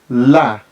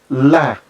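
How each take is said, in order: Both takes have the same delivery.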